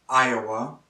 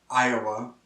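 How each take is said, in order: Both takes have the same delivery.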